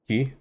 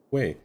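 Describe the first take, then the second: First: The word sounds like 'key'. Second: The word sounds like 'kway'. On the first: "It's not key" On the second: "I'll keep saying it incorrectly"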